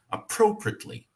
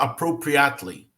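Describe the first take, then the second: First: The first vowel is nearly silent. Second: The first vowel is fully pronounced. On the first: The speaker calls it right. "Esse A aqui quase não é pronunciado" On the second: The speaker calls it wrong. "A gente não vai falar appropriately"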